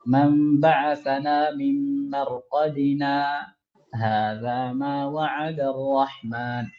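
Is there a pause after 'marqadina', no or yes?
yes. There is a short pause after marqadina.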